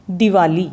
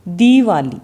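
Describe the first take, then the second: First: दिवाली with a short quick इ; correct short i. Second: दीवाली with a long stretched ई; wrong spelling said with long ई in दीवाली. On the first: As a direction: say दिवाली with a brief इ. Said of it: "हम उच्चारित करके देखें". (दिवाली, छोटी इ जल्दी बोलकर) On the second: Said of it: "ये गलत है". (दीवाली, लंबी ई खींचकर गलत उच्चारण) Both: Shown as a demonstration.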